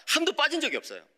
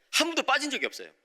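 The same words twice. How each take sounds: The two takes are said the same way.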